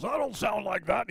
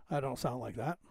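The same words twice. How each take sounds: First: Higher mock-protesting mimic voice; mimicking a movie character. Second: Said in the usual way. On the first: Thirteenth Warrior character made fun of, mimicked protest. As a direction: imitate a mocked man protesting, pitched up. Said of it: "the way the guy was mimicking his voice".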